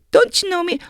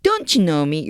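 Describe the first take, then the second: First: Don't you know me? jumps much higher in surprise; surprised. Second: Said in the usual way. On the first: Shown as a demonstration. Teacher acting out a friend on the street who ignores him, surprised. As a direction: sound hurt that an old friend doesn't know you. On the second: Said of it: "요런 거 알아두세요".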